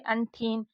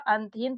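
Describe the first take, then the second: First: An aspirated retroflex th follows the n. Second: A plain t, a vowel, then h follow. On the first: The speaker calls it wrong. "और इसको पढ़ेंगे अंठीन" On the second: The speaker calls it right. "ये शब्द सही निकल रहा है अंतहीन"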